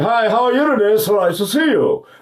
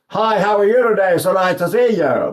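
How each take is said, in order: First: It is said with the sound kept back inside. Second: It is said with a wide-open, spread mouth.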